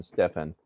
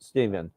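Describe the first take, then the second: First: "Stefan" said STEF-an, short e, f sound; "Stefan" with a clear f, stress on first syllable; Stefan pronunciation. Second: "Stephen" said STEE-ven, long ee, v sound; "Stephen" with a long ee and a soft v; Stephen pronunciation. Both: Shown as a demonstration. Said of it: "Stephen or Stefan?".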